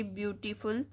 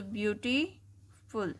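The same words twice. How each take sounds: First: Said in the usual way. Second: beautiful said slowly, split syllable by syllable as ब्यू-टी-फुल; broken into syllables. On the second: Shown as a demonstration. Teacher showing pupils how beautiful breaks up, slow and syllable by syllable. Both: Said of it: "इन्हें हम तोड़ के पढ़ सकते हैं".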